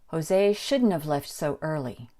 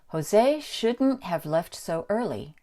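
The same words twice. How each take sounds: First: The word have is reduced to sound like of. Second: The word have is said fully, with h.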